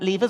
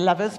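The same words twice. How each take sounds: First: The word is said in a less American way. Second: The word is said in a more American way.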